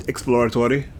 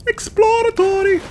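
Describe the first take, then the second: First: Said in the usual way. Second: "Exploratory!" squeaked very high and slow; high squeaky exploratory. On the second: Shown as a demonstration. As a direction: shriek "Exploratory!" in a tiny high voice.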